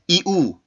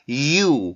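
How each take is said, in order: First: The two sounds are split with a break. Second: The two sounds glide smoothly into one. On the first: The speaker calls it wrong. "이렇게 끊어서 절대로 발음하면 안 되고" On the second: The speaker calls it right. "자연스럽게 이동을 해야 됩니다"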